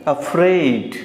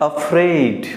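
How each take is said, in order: Both takes have the same delivery.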